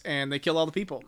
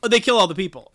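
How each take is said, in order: First: Said in the usual way. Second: Loud, high jolt of surprise on the news; louder and higher, a real gasp of shock; surprised. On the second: Real, not acted. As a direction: blurt it out, caught off guard. Reacting to a shocking plot reveal.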